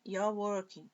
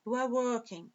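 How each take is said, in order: First: "you are" merged into one syllable, "you're"; contracted form. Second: Said in the usual way. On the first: Shown as a demonstration. Teacher repeating for students in short form, "you are" joined as you're. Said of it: "Forma contraída aqui".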